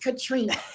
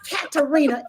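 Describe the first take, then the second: First: The name is said with three syllables. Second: The name is said with four syllables. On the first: The speaker calls it right. "it's Katrina" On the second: The speaker calls it wrong. "it's not Katarina"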